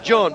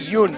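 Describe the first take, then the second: First: The name begins with a J sound. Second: The name begins with a Y sound. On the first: The speaker calls it wrong. "everybody would say" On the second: The speaker calls it right. "you always pronounce the name right"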